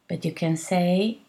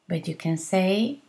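The two takes are said the same way.

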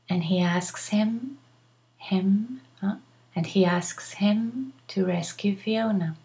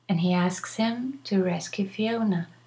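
First: The H sound in 'him' is pronounced. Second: The H sound in 'him' is dropped. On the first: "But you can also say" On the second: "I am not pronouncing the H"

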